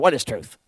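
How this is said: It is asked in an annoyed, dismissive way.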